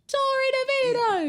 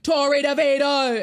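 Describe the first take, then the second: First: It is yelled at a higher pitch. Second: It is yelled at a lower pitch.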